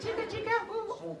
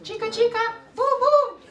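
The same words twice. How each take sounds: First: Very high, soft squeaky mouse chant; quiet mouse voice. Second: Tiny squeaky mouse chant, very high. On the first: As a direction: squeak it softly like a tiny mouse. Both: Shown as a demonstration. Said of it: "say it like a mouse now".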